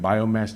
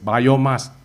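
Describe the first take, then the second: First: The last syllable sounds like English mass. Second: The last syllable sounds like Malay emas. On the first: "rather than biomass" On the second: "I prefer to pronounce as biomass"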